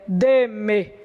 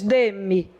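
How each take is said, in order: First: The pronoun keeps a full e vowel. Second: The pronoun is weakened to an i vowel. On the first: The speaker calls it wrong. "Você não diz é" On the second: The speaker calls it right. "Ele é tão fraquinho que o som dele é de i"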